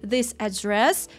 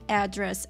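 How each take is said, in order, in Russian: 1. Ударение на втором слоге. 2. Ударение на первом слоге. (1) "Правильно, ударение на второй слог" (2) "многие допускают ошибку и говорят address"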